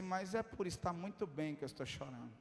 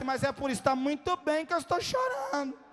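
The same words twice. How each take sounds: First: Low, hushed retold confession; subdued reply. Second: Higher, insistent mimicked answer; emphatic retold reply. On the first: Tearful preacher reassuring the attendant, hushed and subdued. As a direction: say it softly, low in the voice. Retells his tearful answer. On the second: Attendant echoing the preacher's own words, high and emphatic. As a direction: push it out high, as a punchline.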